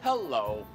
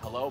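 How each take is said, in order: First: Hello is said with a strange, funny-sounding tune. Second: Hello is said with an ordinary, natural tune. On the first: The speaker calls it wrong. "it would sound rather funny and ridiculous" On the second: The speaker calls it right. "say I say hello"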